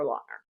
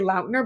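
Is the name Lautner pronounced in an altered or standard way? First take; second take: altered; standard. First: The name is pronounced in an altered form. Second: The name is pronounced in its standard form. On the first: The speaker calls it wrong. "I'm not able to say it when I say the full name" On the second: The speaker calls it right. "I can say Lautner"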